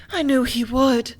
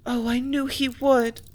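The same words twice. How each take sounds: First: Near tears. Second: Slow, trembling with held-back tears; grieving that he will go; on the verge of tears. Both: A narrator's reading. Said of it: "her voice showed imminent tears".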